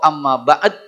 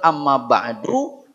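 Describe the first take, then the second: First: The last word ends on a bare d sound. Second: The last word ends in an open u vowel. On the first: "atau amma ba'd" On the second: "Ucapkan amma ba'du"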